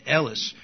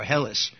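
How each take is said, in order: First: Elis starting on a vowel, no H; Greek pronunciation. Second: Hellas with an H at the start; English pronunciation. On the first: Teacher linking Elisha to the Greek name, Elis without an H. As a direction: leave the H off Elis. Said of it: "they don't have the H sound". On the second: Teacher offering the English alternative, Hellas with an H. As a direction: sound the H in Hellas. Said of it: "We pronounce it Hellas in English". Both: Shown as a demonstration.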